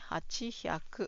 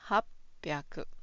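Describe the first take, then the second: First: Both parts are said fully as hachi hyaku. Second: The parts are merged into the shorter hapyaku. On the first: The speaker calls it wrong. "you should read it as hachi hyaku" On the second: The speaker calls it right. "the Japanese pronounce it as hapyaku"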